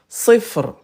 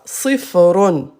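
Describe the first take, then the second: First: The word ends abruptly, without the '-un' ending. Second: The word ends with a pronounced '-un' ending. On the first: The reader stops at the end of the phrase. "Quand on s'arrête, à la fin de la phrase, on ne prononce pas la, la dernière voyelle" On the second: The word is read in the middle of speech. "Ça s'écrit comme ça"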